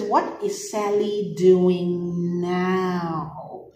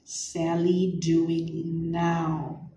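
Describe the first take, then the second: First: What is Sally doing now said very slowly; slow reading. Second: Sally doing now drawn out even slower; slow repeat. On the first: Teacher reads the question slowly to class, very slow. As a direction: read it out slowly, word by word. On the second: Teacher repeats key words for class, very slow. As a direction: stretch each word out. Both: Shown as a demonstration. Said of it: "It says".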